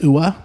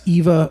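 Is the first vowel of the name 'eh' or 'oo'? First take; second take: oo; eh. First: The name begins with an 'oo' sound. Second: The name begins with an 'eh' sound. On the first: The speaker calls it wrong. "I would have said Ua" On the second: The speaker calls it right. "but no, it's Eva Bem"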